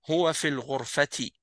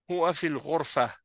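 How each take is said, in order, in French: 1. Le dernier mot se termine par une syllabe ti ajoutée. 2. Le dernier mot se termine par un a bref. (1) "si tu vas continuer, tu vas prononcer le ta" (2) "si tu t'arrêtes à Ghurfa, ... Donc tu prononces le ha"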